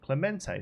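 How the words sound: The name is said with a Spanish pronunciation. The speaker calls it right. "I assume that's like a Spanish pres, uh, pronunciation"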